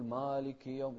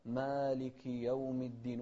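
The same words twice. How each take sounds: First: مالك with a dark, back, heavy long a; heavy alif mistake. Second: مالك slow with a thin, open long a; light alif. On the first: Retold or imitated. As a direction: thicken the a of مالك. (تفخيم الألف في مالك) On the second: Shown as a demonstration. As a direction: keep the a of مالك light, recite slowly. (ترقيق الألف في مالك) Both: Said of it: "وما نفخم الألف".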